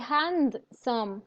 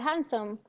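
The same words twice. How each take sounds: First: Every consonant is fully pronounced. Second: A consonant in the middle is dropped. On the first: The speaker calls it wrong. "You don't say handsome" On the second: The speaker calls it right. "you say handsome"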